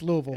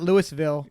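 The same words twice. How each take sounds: First: It is said the Southern way. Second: It is said the non-Southern way.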